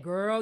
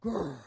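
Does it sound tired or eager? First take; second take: eager; tired. First: It is said eagerly, teasing gossip to come. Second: It is said in a tired, weary way.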